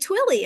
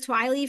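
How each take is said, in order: First: The name is said as 'Twilly'. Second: The name is said as 'Twiley'. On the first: This is how someone else pronounced it. The speaker calls it right. "someone else pronounced it, and they were like Twilly" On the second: This is the mistaken way it was once thought to be said. The speaker calls it wrong. "I thought it was Twiley for a long time"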